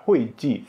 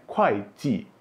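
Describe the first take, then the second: First: Hui ji as 'hway jee'; mistaken hui reading. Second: Kuai ji as 'kwhy jee'; hard k in kuai, both syllables falling; corrected kuai reading. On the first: Teacher demonstrating the mistake, hui ji said 'hway jee'. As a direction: start hui with a breathed h, not k. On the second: Teacher correcting the mistake, kuai ji said 'kwhy jee'. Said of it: "Ini bacanya". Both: Shown as a demonstration.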